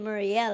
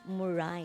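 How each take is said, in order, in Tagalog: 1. Nagtatapos ang pangalan sa tunog na 'el'. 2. Nagtatapos ang pangalan sa tunog na 'ay'. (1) "hindi Muriel ang, ang pronunciation niyan" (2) "ang pronunciation kayan ay Moray"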